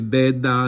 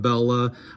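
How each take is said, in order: First: It is said the Sicilian way, with a d sound. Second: It is said the standard way, with an l sound.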